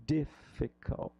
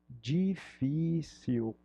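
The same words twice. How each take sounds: First: Difficult drawn out slowly to echo difícil; slow, stretched out. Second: Drawn-out Portuguese difícil; slow, stretched out. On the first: Teacher stretching difficult to match difícil. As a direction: stretch out difficult like the Portuguese word. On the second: Teacher stretching difícil for the class. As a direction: say difícil very slowly, syllable by syllable. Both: Shown as a demonstration. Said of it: "Olha só como é parecido".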